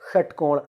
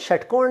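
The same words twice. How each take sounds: First: It begins with a retroflex 'sh' sound. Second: It begins with a palatal 'sh' sound. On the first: The speaker calls it right. "तो हम उसको सिखाएंगे षटकोण" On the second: The speaker calls it wrong. "षटकोण नहीं, शट नहीं"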